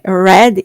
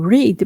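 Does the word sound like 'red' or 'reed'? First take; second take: red; reed. First: The vowel is short, like in 'red'. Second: The vowel is long, like in 'reed'. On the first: The reading happened in the past. The speaker calls it right. "eu sei que é read" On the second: The word is the present or base form. The speaker calls it wrong. "e não read"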